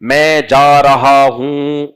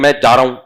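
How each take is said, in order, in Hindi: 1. इसे धीरे-धीरे, सावधान और सटीक उच्चारण के साथ बोला गया है। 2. इसे जल्दी-जल्दी, सहज और लड़खड़ाते उच्चारण के साथ बोला गया है। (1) "ऐसे बोला करो तमीज से" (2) "ऐसा नहीं कि"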